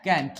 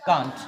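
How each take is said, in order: First: कैंट with a front "ae" vowel; American-style pronunciation. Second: कांट with a long open "aa"; British pronunciation. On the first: Teacher showing class the other form, कैंट with "ae". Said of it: "इसी चीज को इसमें हम लोग कहते हैं". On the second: Teacher showing class the British form, कांट with long "aa". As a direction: say कांट the British way, vowel as in "father". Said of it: "British में इसको हम लोग बोलते हैं". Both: Shown as a demonstration.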